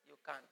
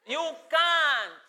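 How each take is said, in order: First: Much softer, lower you can't; quiet low echo. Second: Loud, high emphatic you can't; loud firm you can't; loud declaration. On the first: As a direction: drop to a near murmur. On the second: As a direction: declare it firmly and loudly. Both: Shown as a demonstration. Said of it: "loud then soft contrast".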